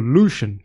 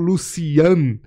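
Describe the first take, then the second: First: The name is said with American English sounds. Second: The name is said with Portuguese sounds. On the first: "eu falo Lucian, porque é a versão original" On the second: "Eu não falo Lucian"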